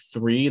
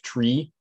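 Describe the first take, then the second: First: It is said with a standard 'th' sound. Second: It is said the Jamaican way, like tree.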